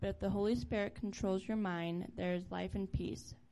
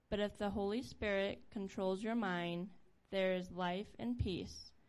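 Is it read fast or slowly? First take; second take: fast; slowly. First: It is read quickly. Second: It is read more slowly.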